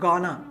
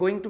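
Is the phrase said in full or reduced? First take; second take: reduced; full. First: The words are reduced and blended into one. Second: Both words are said fully and separately. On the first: "slang है गॉना" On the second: "गोइंग टू का"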